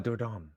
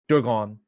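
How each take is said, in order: First: The name is said like 'door done'. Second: The name is not said like 'door done'. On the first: The speaker calls it right. "door done. Kind of think of it like that" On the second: The speaker calls it wrong. "I said it wrong, didn't I?"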